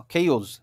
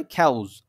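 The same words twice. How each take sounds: First: খেউজ with an "e" vowel, "khe-oz"; pronunciation demo. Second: খ্যাউজ with an open "a", "khauz"; alternative pronunciation. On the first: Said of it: "ওকে, এরকম". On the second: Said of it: "আর না হলে". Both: Shown as a demonstration.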